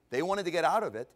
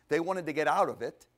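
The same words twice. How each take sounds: The two takes are said the same way.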